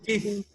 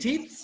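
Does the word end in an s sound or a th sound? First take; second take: th sound; s sound. First: The word ends with a long th sound. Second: The word ends with a plain s sound. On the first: It means teeth. The speaker calls it right. "It's teeth. Like theta" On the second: It names a different body part. The speaker calls it wrong. "if you say teeth, it's you are saying something else"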